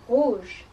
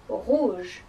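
No difference in how they are said.

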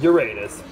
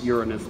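First: The word gets its jokey, punning pronunciation. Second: The word gets its usual, everyday pronunciation. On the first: The name is said as a joke. "one does have to joke occasionally" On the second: The name is said in the normal way. "I really pronounce it Uranus most of the time"

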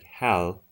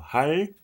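First: The final consonant is a clear English L. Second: The final consonant falls between L and R. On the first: The speaker calls it wrong. "if you say L, it's like Hal, Hal, but that's not how you say it" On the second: The speaker calls it right. "it's a bit of both. And neither at the same time"

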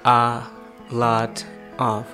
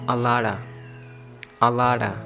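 First: The three words are said as separate parts. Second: The words link smoothly with a flapped T. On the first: "Most of people say it in three, you know, parts" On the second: "T will become a flap T"

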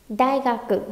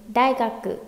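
No difference in how they are said.

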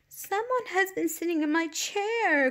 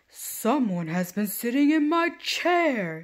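First: It is said in a wee small voice. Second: It is said in a great big voice.

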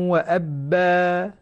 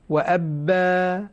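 No difference in how they are said.

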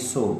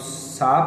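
First: The vowel is a rounded 'oh' sound. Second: The vowel is an open 'ah' sound. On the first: The speaker calls it right. "this should be so" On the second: The speaker calls it wrong. "जिसको हम सा पढ़ते आए"

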